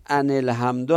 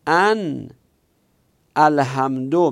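First: ان الحمدو run together as anil-hamdu with a kasra link; teacher giving the corrected reading. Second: ان then الحمدو recited slowly as an, a pause, then al-hamdu, rising; teacher quoting the verse aloud; loud recitation. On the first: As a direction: join ان and الحمدو with a linking i. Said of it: "ان الحمدو هست". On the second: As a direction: recite the Quranic phrase with a pause after ان. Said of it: "این ان نیست، ان الحمدو هست". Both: Shown as a demonstration.

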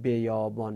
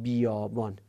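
First: بیابان opened with a short "be"; wrong short vowel. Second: بیابان opened with a long "bii"; correct long i. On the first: Teacher gives students a wrong example, بیابان as "beyâbân". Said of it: "مثلا نباید بگیم بیابان". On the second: Teacher gives students the right example, بیابان as "biiyâbân". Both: Shown as a demonstration.

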